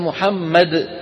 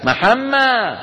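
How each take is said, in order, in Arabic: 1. الاسم ينتهي بصوت دال واضح في الآخر. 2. الاسم ينتهي بدون صوت دال في الآخر. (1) "هي محمد" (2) "إخواننا بمصر بالأرياف يقول لك محمى"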